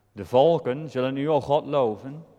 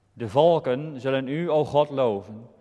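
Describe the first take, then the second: Both takes have the same delivery.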